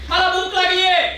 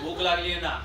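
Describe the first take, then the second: First: The voice is thin and high-pitched. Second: The voice is heavy and deep. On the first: A thin, slight person says it. "एखादं किटकिटीत म्हणतं" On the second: A plump, heavy person says it. "डब्बू असतं ते ... असंच म्हणतं"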